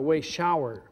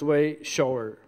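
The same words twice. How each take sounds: First: Shower rhymes with flower, like a bath shower. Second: Shower rhymes with mower, meaning one who shows. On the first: A shower that you stand under and wash in. The speaker calls it wrong. "the type of shower that rhymes with flower" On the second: Someone who shows the way. The speaker calls it right. "it's way shower, not shower"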